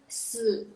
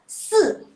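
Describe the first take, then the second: First: The pitch dips low and then rises. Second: The pitch falls sharply from high to low. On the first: "kalau nada ketiga" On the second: "kalau nada keempat"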